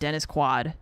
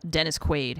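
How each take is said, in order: First: The surname is said with an altered vowel. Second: The surname is said the standard way. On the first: The speaker calls it wrong. "He said Dennis Quad" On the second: The speaker calls it right. "or Dennis Quaid"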